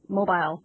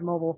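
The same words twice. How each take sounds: First: The word is said with a British pronunciation. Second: The word is said with an American pronunciation. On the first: This is the form used when reading for British fandoms. "I would say mobile ... when I'm reading in British fandoms" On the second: This is the speaker's usual form. "instead of mobile"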